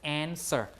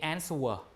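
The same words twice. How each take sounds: First: No w sound is pronounced after the s. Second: A w sound is pronounced after the s. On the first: The speaker calls it right. "We say just answer" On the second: The speaker calls it wrong. "do you say answer? We don't"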